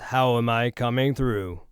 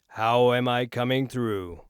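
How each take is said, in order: First: The full low end of the voice is present. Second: Much of the voice's bass is removed. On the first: "Right now we're doing a flat response" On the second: "Right now I'm on negative one sixty"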